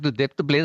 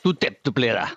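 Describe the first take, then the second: First: It sounds friendly and affectionate. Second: It sounds somewhat aggressive.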